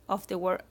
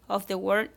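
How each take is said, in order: No difference in how they are said.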